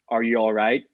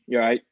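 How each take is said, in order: First: Every word of the phrase is said in full. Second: The phrase is squeezed down to two syllables. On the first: "they'll always ask" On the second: "But it'll be"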